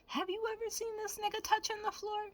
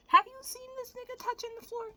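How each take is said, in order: First: Much higher, disbelieving question; high, amazed rhetorical question; incredulous. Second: Much higher, slightly louder disbelief; squeaky, amazed repeat; incredulous. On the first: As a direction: ask it in mock disbelief. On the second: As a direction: push the disbelief further. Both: Real, not acted.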